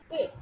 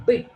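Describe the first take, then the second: First: "Pit" with a light, floating p; unvoiced P. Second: "Bit" with a stressed, voiced b. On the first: Teacher showing a floating sound, unvoiced P. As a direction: open "Pit" on a voiceless p, no vibration. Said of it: "no vibration". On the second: Teacher showing that B got its voice, stressed B. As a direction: press a vibrating b to open "Bit". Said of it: "B is stressed and got its voice". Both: Shown as a demonstration.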